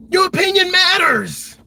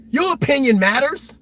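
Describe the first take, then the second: First: Slow, much louder and higher, "Your" pressed hard; shouted affirmation. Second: Said in the usual way. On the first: Shown as a demonstration. Telling moms and dads their voice counts, shouted slowly. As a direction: drive it home with a rallying shout.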